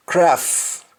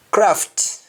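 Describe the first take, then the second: First: "craft" said as craf, the final t dropped; Jamaican, no final t. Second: Said in the usual way. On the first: Shown as a demonstration. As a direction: drop the t at the end of "craft". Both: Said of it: "You don't pronounce the T at the end".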